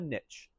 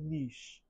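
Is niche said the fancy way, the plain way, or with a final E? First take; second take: plain; fancy. First: Niche is said in a plain, everyday way. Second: Niche is said in a fancy, pretentious-sounding way. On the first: The speaker avoids sounding pretentious. "You don't want to sound pretentious, call it a niche" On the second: The speaker sounds pretentious. "If you want to be pretentious"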